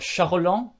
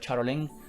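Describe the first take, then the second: First: The name is said with a French-style pronunciation. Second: The name is said with an English-style pronunciation.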